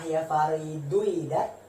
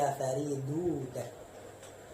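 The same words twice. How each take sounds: First: The initial i-vowel of the verb is pronounced. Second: The initial i-vowel of the verb is dropped. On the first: The speaker calls it wrong. "Apakah ya Faridu idat? Tidak" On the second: The speaker calls it right. "tapi ya Faridu idat"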